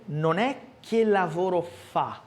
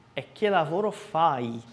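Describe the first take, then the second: First: Fa stressed as the wrong ending, slow; wrong form, slow. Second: Fai with a clear final i; correct form. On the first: Teacher contrasting wrong fa with fai. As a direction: show the mistake slowly. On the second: Teacher giving the correct fai after the wrong fa. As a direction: stress the right ending fai. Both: Shown as a demonstration.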